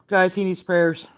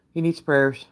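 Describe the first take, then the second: First: Hushed whisper to the viewers; whispered plea for prayers. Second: Said in the usual way. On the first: Real, not acted. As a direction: breathe it like a secret plea.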